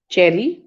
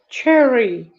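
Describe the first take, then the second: First: It is said with an Indian English accent. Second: It is said with a British English accent. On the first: "Indian English" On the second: "is British English"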